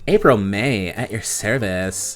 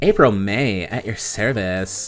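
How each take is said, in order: First: It is said in a Valley Girl voice. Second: The same.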